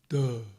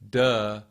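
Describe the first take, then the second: First: It is a dopey, stupid-sounding, low duh. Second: It is a plain, ordinary-sounding duh. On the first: "But if you say duh, it drops" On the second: "if you just say duh, duh, duh, it just sits there"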